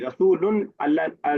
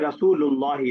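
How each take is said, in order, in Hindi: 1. Rasul 'un' पर खत्म होता है, और Allah अलग से आता है। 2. Rasul बिना किसी अंत के सीधे Allah से जुड़ जाता है। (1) "रसूलुन अल्लाह नहीं बोलते हम" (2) "हम बोलते हैं रसूलुल्लाही"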